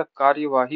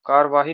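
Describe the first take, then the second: First: Said in the usual way. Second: कार्यवाही said 'kaar-vaahi'; dropped 'y'. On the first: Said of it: "होता है". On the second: Shown as a demonstration. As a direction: say कार्यवाही without its 'ya'. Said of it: "नहीं होता".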